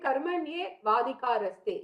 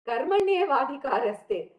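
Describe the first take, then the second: First: There is a break after the first word. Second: It is said as one unbroken phrase. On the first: The speaker calls it wrong. "You cannot take a break between Karmanye and Vadhikaraste" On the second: The speaker calls it right. "very, very often quoted verse"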